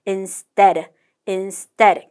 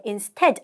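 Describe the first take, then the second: First: "Instead" with a hard, unaspirated T like ㄸ; tense the T after S in "Instead"; tensed T. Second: "instead" with an aspirated T after S; unwanted plain T. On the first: Teacher models Korean learners' tensed sound, hard T in "Instead". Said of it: "경음화 현상으로 인해서 쌍디귿 소리로 바뀌는". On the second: Teacher shows students what to avoid, "instead" with plain T. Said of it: "instead 아니고요". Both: Shown as a demonstration.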